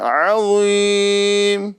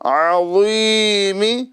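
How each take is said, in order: First: The word ends on a bare consonant. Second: The word ends with a short vowel. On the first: The reading stops at this word. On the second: The reading continues without a stop.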